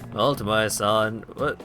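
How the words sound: It is said in a put-on character voice. The speaker calls it wrong.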